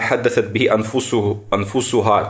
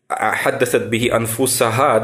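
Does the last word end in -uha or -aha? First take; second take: -uha; -aha. First: The last word ends in -uha. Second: The last word ends in -aha. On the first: The soul speaks by itself, without will. "то есть, «рафа»" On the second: One speaks to oneself by choice. "то, что ты своей душе говоришь"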